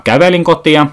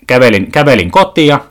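First: "kävelin" korostettuna, painokkaasti; stress on kävelin. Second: Said in the usual way. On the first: Shown as a demonstration. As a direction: paina sanaa "kävelin" kuin huomauttaen. (sana "kävelin" painotettuna)

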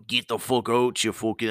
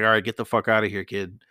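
First: Badly faked Scottish cop; horrible Scottish accent. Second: Said in the usual way. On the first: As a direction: put on a clumsy Scottish accent. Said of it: "it's a horrible Scottish accent". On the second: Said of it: "it's a horrible Scottish accent, but you".

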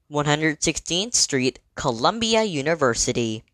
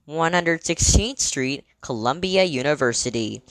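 Both takes have the same delivery.

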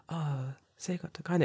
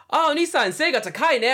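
First: Quiet, polite. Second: High, loud cheery call-out; loud kid. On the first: Shown as a demonstration. The timid way the kid did not say it, quiet. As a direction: say it politely under your breath. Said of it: "it wasn't like". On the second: Retold or imitated. Bravest kid yelling to his new big friend, high and loud. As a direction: belt it like a bold little kid. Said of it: "like, loud as".

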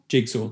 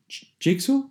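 First: Said in the usual way. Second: "jigsaw" mangled as zhigsaw, ending on an unsure rise; fumbled word. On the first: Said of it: "There we are". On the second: Real, not acted. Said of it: "That's horrendous".

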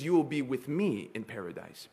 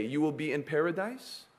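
First: "with me" leaned on, softly; a preacher correcting a misquote, stressing "with me". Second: Said in the usual way. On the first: Shown as a demonstration. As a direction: underline "with me". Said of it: "Big difference". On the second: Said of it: "he didn't say that".

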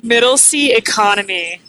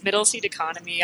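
First: Loud emphatic. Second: Said in the usual way. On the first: Real, not acted. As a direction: punch out Middle seat economy loudly. Joking about cheap flight seat.

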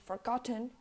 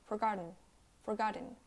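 First: "forgotten" as "forgot-ten" with released T; full T. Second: "forgotten" ending in "in", T softened away; unreleased T. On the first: Teacher showing the wrong way, "forgotten" with full T. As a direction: pop the T in "forgotten". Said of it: "You don't say forgotten". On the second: Teacher showing American English, "forgotten" with softened T. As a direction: swallow the T in "forgotten". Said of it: "you don't pronounce the T". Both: Shown as a demonstration.

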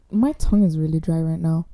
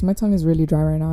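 First: Talking with a dry tongue; dry mouth. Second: Quick repeat with a dry tongue; fast dry mouth. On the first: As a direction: mouth parched, words a bit sticky. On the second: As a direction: rattle it off, mouth parched. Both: Real, not acted.

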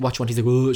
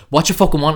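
First: Said in the usual way. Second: Louder, higher mock snap; exasperated. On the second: Imitating girlfriend asking her silent boyfriend, exasperated. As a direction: repeat the question with impatience. Girlfriend repeats it, losing patience.

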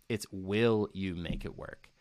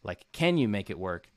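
First: Will said slow and firm, falling; stress on will. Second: Can said with a small lift; stress on can. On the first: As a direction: lean hard on will, slowly. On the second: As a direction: lean on can as the weaker option. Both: Shown as a demonstration. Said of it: "my question is not just".

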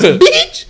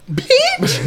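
First: Much higher and louder squealed Bitch; louder Mikey squeal. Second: Squeaky, much higher mock Mikey; Mikey's voice. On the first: Retold or imitated. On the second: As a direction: squeak the word Bitch like Mikey does. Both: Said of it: "You know how he talks".

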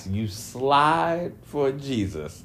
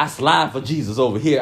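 First: Slow, disbelieving question; incredulous echo. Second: Said in the usual way. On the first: Retold or imitated. Echoing the rapper's claim to viewers with slow disbelief. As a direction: repeat his words back, slowly and in disbelief. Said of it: "I'm like". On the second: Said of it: "where he was like".

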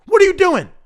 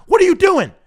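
The two takes are said the same way.

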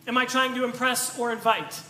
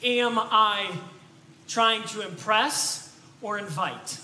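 First: Said in the usual way. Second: Slow, weighty "trying to impress or invite"; slow question. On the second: Shown as a demonstration. Preacher posing the key question, slow and weighty. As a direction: set the question down slowly. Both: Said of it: "ask ourselves this question".

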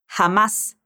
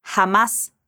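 First: Jamás with a rasped throat J, like h; Jamás said as xamás; throaty Spanish J. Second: Jamás again with the throat J; throaty Spanish J. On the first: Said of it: "o som do J vem da garganta". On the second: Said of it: "De novo". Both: Shown as a demonstration.

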